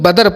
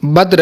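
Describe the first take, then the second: First: A vowel splits the final consonants into two syllables. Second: The final consonants cluster together in one syllable. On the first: The speaker calls it wrong. "जिसे हम लोग बदर पढ़ते हैं" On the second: The speaker calls it right. "नहीं, बद्र है ये"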